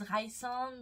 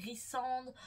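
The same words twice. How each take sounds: First: Rhysand said Raï-sande with an English "ai" vowel; English-style name. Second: Rhysand said Riss-ande with a short i; French-style name. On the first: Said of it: "y en a qui disent Rhysand". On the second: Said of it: "d'autres qui disent Rhysand". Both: Shown as a demonstration.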